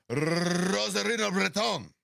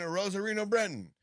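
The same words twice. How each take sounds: First: Slow, higher Spanish name with huge trill; exaggerated Spanish accent. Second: Said in the usual way. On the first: Host contrasts it with the other names, exaggerated Spanish accent. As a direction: roll the Spanish R as long as possible. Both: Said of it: "You don't like that?".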